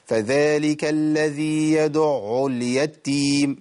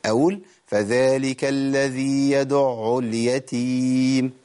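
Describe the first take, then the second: First: فذلك الذي يدع اليتيم recited slowly with a doubled taa in اليتيم; wrong recitation demo. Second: فذلك الذي يدع اليتيم chanted slowly with a light single taa in اليتيم; correct recitation demo. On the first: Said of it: "ده خطأ". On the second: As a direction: recite it smoothly, no doubling on the taa. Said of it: "بشكل سهل". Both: Shown as a demonstration.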